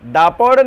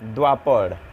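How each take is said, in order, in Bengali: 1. প্রথম অক্ষরটি সাধারণ 'da'। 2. প্রথম অক্ষরটি 'w-glide' সহ 'dwa'। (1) "দাপর নয়" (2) "দৈব আকার মানে দোয়া"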